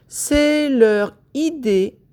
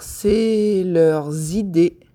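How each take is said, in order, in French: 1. Aucun son z ne relie les deux mots. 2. Un son z relie les deux mots.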